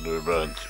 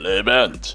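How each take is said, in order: First: It is said in a very deep voice. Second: It is said in a normal voice.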